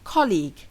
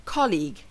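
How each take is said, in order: Both takes have the same delivery.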